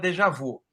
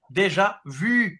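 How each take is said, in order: First: The final vowel has a plain Portuguese sound. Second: The final vowel has a French rounded sound. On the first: "No Brasil, todo mundo chama" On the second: "Ele puxa no U, puxa o som de I"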